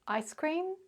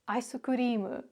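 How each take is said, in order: First: It is said with an English pronunciation. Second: It is said with a Japanese pronunciation. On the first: "the English word ice cream" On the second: "In Japanese"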